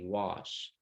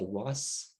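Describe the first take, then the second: First: The word ends in an sh sound. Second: The word ends in an s sound. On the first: The speaker calls it right. "It's supposed to be wash" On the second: The speaker calls it wrong. "you said was"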